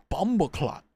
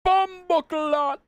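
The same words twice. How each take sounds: First: Said in the usual way. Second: High, drawn-out mock Jamaican exclamation; playful high-pitched Jamaican cry; mock Jamaican shout. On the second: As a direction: belt it out slowly in exaggerated Jamaican. Shouts the substitute swear alone.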